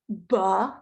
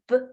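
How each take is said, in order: First: The b sound ends with an added uh vowel. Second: The b sound is clipped with no vowel after. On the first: The speaker calls it wrong. "people commonly add a vowel after the sound" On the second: The speaker calls it right. "clip the consonant sounds and leave that "uh" off"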